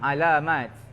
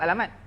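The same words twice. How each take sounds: First: The middle vowels are drawn out long. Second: The middle vowels are kept short. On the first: It is the Arabic pronunciation. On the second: It is the Malay pronunciation. "Bahasa Melayu"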